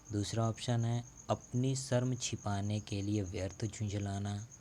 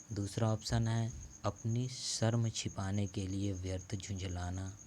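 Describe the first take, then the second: Both takes have the same delivery.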